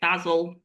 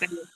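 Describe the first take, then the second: First: It is said with a British English pronunciation. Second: It is said with an American English pronunciation. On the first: The speaker calls it right. "I just get it different because I'm English. So, you know, it's basil" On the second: The speaker calls it wrong. "not basil"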